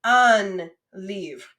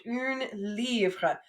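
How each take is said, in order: First: Un livre with the nasal un; un said nasal and open before livre. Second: Une livre with the feminine une; careful feminine une before livre. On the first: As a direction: masculine un livre, clearly nasal. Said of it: "But une livre". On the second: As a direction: une said as a rounded une, livre after it. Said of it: "Careful, though, because we've learned un livre". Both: Shown as a demonstration.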